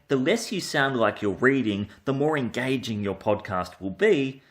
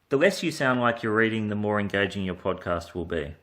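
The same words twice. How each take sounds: First: The delivery is lively with a varied tone. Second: The delivery is flat with an unvaried tone. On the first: It sounds natural, not read aloud. The speaker calls it right. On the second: It sounds like reading from a script. The speaker calls it wrong.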